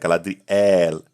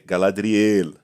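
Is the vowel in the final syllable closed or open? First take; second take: open; closed. First: The final syllable has an open, stressed vowel. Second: The final syllable has a closed vowel. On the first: The speaker calls it wrong. "essa oxítona no final" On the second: The speaker calls it right. "Mais fechada e, e, e não aberta"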